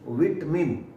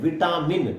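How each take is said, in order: First: The second vowel is short and reduced. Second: The second vowel is a long aa. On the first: The speaker calls it right. "विटमिन या विटमन" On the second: The speaker calls it wrong. "No"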